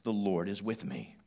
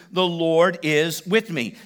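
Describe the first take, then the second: First: Soft, settled affirmation; soft declaration. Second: Slow, loud, stressing with; with conviction. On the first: Preacher modelling a phrase for the hurting, softly. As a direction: say it quietly to yourself. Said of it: "a good phrase to say to yourself". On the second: Preacher urging the congregation to claim it, with conviction. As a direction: declare it slowly with conviction. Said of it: "You gotta say it with conviction". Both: Shown as a demonstration.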